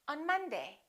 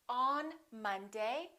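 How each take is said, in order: First: The vowel in 'on' is a reduced uh sound. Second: The vowel in 'on' is a full vowel. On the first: The speaker calls it right. "we say on Monday. Un" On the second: The speaker calls it wrong. "We don't say on Monday"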